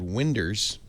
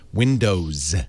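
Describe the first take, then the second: First: The final syllable is slurred and reduced. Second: The final syllable is said clearly and fully. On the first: The speaker calls it wrong. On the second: The speaker calls it right.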